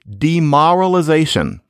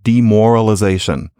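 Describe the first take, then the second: First: It uses the older East Coast vowel before r. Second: It uses the common modern vowel before r. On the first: This is how it was said in an earlier era. "demoralization instead of demoralization" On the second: This is how most people say it today. "as one would most likely pronounce it today"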